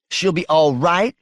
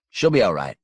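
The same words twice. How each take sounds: First: High, rising, disbelieving question; incredulous echo. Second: Said in the usual way. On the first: Acted. Wife challenging husband's assurance about her mama, incredulous. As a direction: throw it back at him in disbelief.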